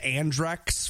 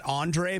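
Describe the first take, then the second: First: The word ends with a final ks sound. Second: The word ends without a final ks sound. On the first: "but maybe it's Andrex" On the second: "I've just been pronouncing that Andre"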